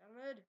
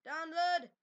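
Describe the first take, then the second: First: Said in the usual way. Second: Loud, forceful "Download"; emphatic repeat. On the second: Real, not acted. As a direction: say "Download" louder, as an insistent repeat. Same word repeated with more force.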